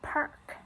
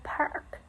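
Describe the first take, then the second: First: The R after the vowel is silent. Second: The R after the vowel is pronounced. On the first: "we don't say in uh, it in park" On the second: "In American thoughts, we pronounce um, every um, written R"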